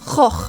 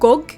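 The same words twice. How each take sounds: First: The G is a throaty rasping sound. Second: The G is a hard stop sound. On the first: This is how it is said in Dutch. The speaker calls it right. "the actual Dutch pronunciation is more like" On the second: This is how a Norwegian says it. The speaker calls it wrong. "Because I'm Norwegian, I always uh, pronounce it"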